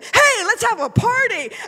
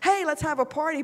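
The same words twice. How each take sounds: First: It is said excitedly, like an exclamation. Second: It is said flatly, without excitement.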